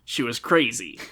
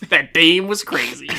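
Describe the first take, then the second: First: Said in the usual way. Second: Louder hardboiled detective voice; noir detective. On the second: Acted. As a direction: play it like a noir gumshoe. Noir take with dame.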